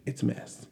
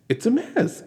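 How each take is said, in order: First: A hushed, breathy it's a mess; dropped to a whisper, it's a mess; whispered aside. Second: It's a mess, pitched higher with a rising end; an incredulous, higher it's a mess; exclaimed. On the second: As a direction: toss it's a mess up high in disbelief. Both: Acted.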